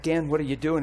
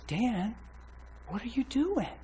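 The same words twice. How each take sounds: First: Said in the usual way. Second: High, soft imitation of a girlfriend; imitated concerned girlfriend. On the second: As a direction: gently confront him in her higher voice. Retells her troubled, pleading question.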